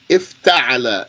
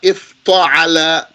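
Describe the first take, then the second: First: The t sound is light and plain. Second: The t sound is thick and emphatic. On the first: The speaker calls it right. "keep it as a tat" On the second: The speaker calls it wrong. "not ifta'ala because the tat turned into a ta"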